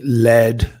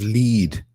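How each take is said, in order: First: The word has a short 'eh' vowel. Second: The word has a long 'ee' vowel. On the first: An automated voice misread the word. The speaker calls it wrong. "may led to a delay" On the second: The intended meaning of the word. The speaker calls it right. "instead of lead to a delay"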